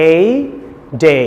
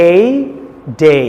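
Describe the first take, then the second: Both takes have the same delivery.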